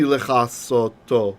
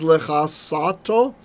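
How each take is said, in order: First: The vowel before the last syllable is o. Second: The vowel before the last syllable is a. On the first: To completely cover. The speaker calls it right. "It should be lechasoto" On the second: To cover. The speaker calls it wrong. "if I read it the wrong way, if I read it as lechasato"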